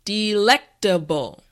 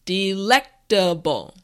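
No difference in how they are said.

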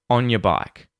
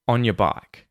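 No difference in how they are said.

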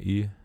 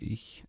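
First: It is said in the local dialect. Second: It is said in standard High German.

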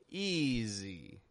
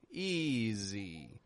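First: The middle consonant is a buzzing Z sound. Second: The same.

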